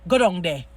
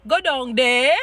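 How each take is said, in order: First: "Go down there" kept level and monotone, Jamaican way; flat Jamaican. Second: "Go down there" lilted up high and loud, sing-song; sing-song off-Jamaican. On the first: Actor finally gets the patois line right, monotone. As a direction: say "Go down there" flat and even, one tone. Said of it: "monosyllabic, you know, monotoned". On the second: Actor's first try at the patois line, sing-song and off. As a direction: sing "Go down there" like another Caribbean island. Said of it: "he kinda sing up the day". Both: Retold or imitated.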